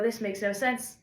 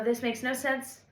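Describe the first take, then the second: First: Said in the usual way. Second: Half-shouted "This makes no sense."; mock frustrated yell. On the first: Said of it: "look at something and go". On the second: To her own lyrics, mildly yelled in frustration. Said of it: "I look at this and I go".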